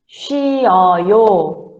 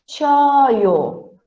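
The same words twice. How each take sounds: First: It is said slowly. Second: It is said quickly.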